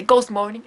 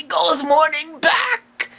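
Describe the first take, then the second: First: Said in the usual way. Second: Partner's cheery shout. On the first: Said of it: "But instead I say". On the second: Acted. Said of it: "And the partner would say".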